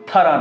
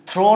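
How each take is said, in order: First: The word ends with an ah vowel. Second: The word ends with an oh vowel. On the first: "থারা না" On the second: "থ্রো না"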